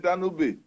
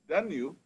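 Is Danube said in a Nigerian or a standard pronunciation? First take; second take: Nigerian; standard. First: Danube is said with a Nigerianized pronunciation. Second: Danube is said with a standard pronunciation. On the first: The speaker calls it wrong. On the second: The speaker calls it right.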